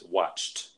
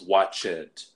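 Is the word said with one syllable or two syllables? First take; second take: one syllable; two syllables. First: The ending is a single T sound, one syllable. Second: The ending is an extra syllable, like "it". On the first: The speaker calls it right. "the correct pronunciation in the past tense is watched. ... it sounds like a T" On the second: The speaker calls it wrong. "They'll add an extra syllable"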